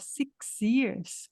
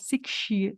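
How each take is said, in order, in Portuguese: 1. O x e o y continuam separados, um s simples. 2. O x e o y se fundem num som de sh. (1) "em vez de falar six years" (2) "Faz esse chiado aí no X"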